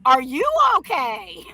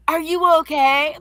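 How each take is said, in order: First: Son mocking it back. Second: Lightly voiced worried staff asking; a hint of a fussy adult's concern; principal's concern. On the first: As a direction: throw the question back with sneering laughter. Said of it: "My son starts laughing at him". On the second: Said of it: "it was like".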